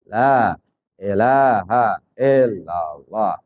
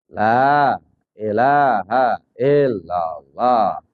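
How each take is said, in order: No difference in how they are said.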